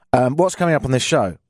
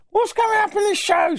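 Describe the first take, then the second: First: Said in the usual way. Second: High mocking listener voice. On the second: Host mimicking a listener asking what's next, high mock voice. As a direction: squeak the question like a nagging listener. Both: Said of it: "I hear you say".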